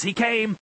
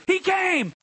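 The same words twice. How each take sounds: First: "He came" declared slightly raised, falling on "came"; preacher's intonation. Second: "He came" very high, falling at the end; exaggerated preaching intonation. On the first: Pastor modelling what to say, "He came" in moderate preaching intonation. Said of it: "don't say it in that same intonation". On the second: Pastor showing what not to do at dinner, "He came" proclaimed very high. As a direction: proclaim "He came" far too high for conversation. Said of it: "in that same intonation or tone". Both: Shown as a demonstration.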